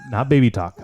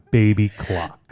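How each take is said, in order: First: "Talk" stressed as the wrong word; contrastive correction. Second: "Clock" drawn out slowly; emphatic correction. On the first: Contrasting wrong name with right one. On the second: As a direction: spell it out slowly, landing on "Clock". Gives the right band name slowly. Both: Real, not acted.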